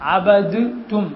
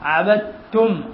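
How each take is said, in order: First: The d is pronounced separately before the t. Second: The d is dropped, merging into the t. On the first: "എന്നാണ്" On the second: "അവിടെ ദാല് നമ്മൾ കേൾപ്പിക്കുന്നില്ല"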